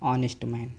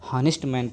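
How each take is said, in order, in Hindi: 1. "Honest" एक vowel से शुरू होता है, इसमें कोई h ध्वनि नहीं है। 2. "Honest" की शुरुआत एक सुनाई देने वाली h ध्वनि से होती है। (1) "यहाँ भी एच आपका साइलेंट है" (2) "तो समझ लीजिए आपका गलत है"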